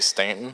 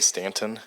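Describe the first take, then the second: First: The name is said casually, as locals say it. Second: The name is said with exaggerated, overcareful articulation. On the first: This is how people from the town say it. "If you're from there, you say" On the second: The speaker says it more carefully than needed. "I overpronounce it"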